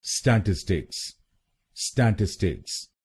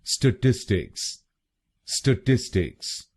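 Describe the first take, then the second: First: statistics with open "sta" stressed at the start; wrong stress on STA. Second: statistics with the middle syllable टिस stressed; stress on TIS. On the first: Teacher demos the wrong first-syllable stress. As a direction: hit the first syllable of statistics, the common mistake. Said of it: "पहले शब्दांश पर यानी STA पर जोर डालते हैं". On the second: Teacher shows correct stress on the second syllable. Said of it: "दूसरे शब्दांश पर ... जोर डालना है". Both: Shown as a demonstration.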